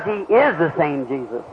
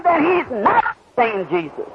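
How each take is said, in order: First: Is pressed, pitch drops lower; stress on is. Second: Not pressed hard and slow; stress on not. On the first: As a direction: hit the word is, lower and slow. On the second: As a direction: lean on the word not, slowly. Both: Shown as a demonstration.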